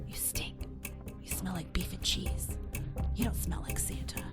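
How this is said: It is said in a whisper.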